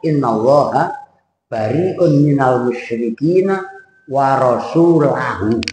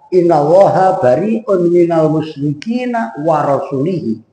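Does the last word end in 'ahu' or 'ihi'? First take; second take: ahu; ihi. First: The last word ends with the vowels a-u. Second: The last word ends with the vowels i-i. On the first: God and his messenger are free of the idolaters. The speaker calls it right. "terus dibaca ayat innallaha bari'un minal musyrikina wa rasulahu" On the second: God is free of the idolaters and of his messenger. The speaker calls it wrong. "kalau dibaca innallaha bari'un minal musyrikina warasulihi"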